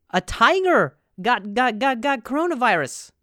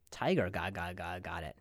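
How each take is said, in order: First: Loud announcement. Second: Quiet. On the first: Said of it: "first loud take of headline". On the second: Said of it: "repeats headline quietly". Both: Shown as a demonstration.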